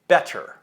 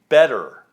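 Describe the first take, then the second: First: The middle consonant is a full, crisp T. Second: The middle consonant is a quick light tap. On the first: The speaker calls it wrong. "not better" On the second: The speaker calls it right. "The flap T sound happens with words like better"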